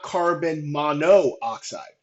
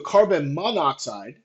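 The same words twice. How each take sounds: First: The prefix vowel is kept before oxide. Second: The prefix vowel is dropped before oxide. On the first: The speaker calls it wrong. "not carbon monoxide" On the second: The speaker calls it right. "So carbon monoxide"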